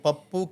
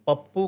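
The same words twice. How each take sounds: The two takes are said the same way.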